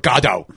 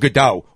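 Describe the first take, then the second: First: It is pronounced the Irish way. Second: It is pronounced the general, non-Irish way.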